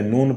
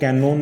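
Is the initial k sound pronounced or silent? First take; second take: silent; pronounced. First: The word starts directly with an n sound. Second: A k sound is pronounced at the start. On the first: The speaker calls it right. "नोन पढ़ते हैं" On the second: The speaker calls it wrong. "इसको कैनोन नहीं पढ़ते"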